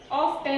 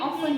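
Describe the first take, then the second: First: The t is pronounced: off-ten. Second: The t is silent: off-en. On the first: The speaker calls it wrong. "ऑफ टेन नहीं है" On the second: The speaker calls it right. "ऑफन बोलते इसको"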